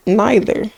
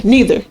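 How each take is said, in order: First: "neither" said as NYE-ther; NYE-ther, long i in "neither"; alternate pronunciation. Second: "Neither" said as NEE-ther, higher; NEE-ther, pitched up on "Neither"; alternate pronunciation. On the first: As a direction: say "neither" with an eye vowel. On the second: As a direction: say "Neither" with an ee vowel. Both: Shown as a demonstration. Trying out two pronunciations aloud.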